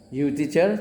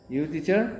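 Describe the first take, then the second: First: You teacher? with "teacher" rising at the end; rising question tune. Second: You teacher? with "teacher" rising; just ask by lifting "teacher"; casual rising question. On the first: Teacher shows students how to ask by tune, rising. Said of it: "tapi nadanya nada bertanya". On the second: Teacher shows asking a stranger by tune, rising. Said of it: "ditanya aja". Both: Shown as a demonstration.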